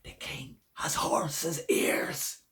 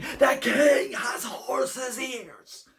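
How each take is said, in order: First: It is a loud whisper. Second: It is a very loud whisper.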